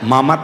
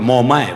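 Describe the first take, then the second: First: The first vowel is an open 'a' sound. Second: The first vowel is a rounded 'o' sound. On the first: "મામા ને મામા કેવી" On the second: "તે કે મોમા"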